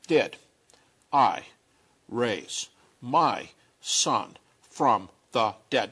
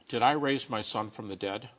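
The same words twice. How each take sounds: First: It is said very slowly and deliberately. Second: It is said at a normal pace.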